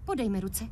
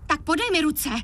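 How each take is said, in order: First: Quiet, gentle ask; soft request. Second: Firmer repeat. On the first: Girl softly asks boyfriend for his hands. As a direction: coax him softly. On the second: Girl insists boyfriend give his hands, firmer. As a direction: push him to do it. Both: Acted.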